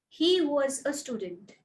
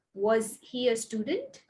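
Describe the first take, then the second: First: "He was a student" stressed on "He", falling at the end; statement tune. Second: "Was he a student?" with "student" rising; question tune. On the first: Teacher modelling a falling statement intonation. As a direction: settle down on "student". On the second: Teacher modelling a rising question intonation. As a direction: lift "student" up to ask. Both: Shown as a demonstration. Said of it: "make sure you listen to my stress and my intonation".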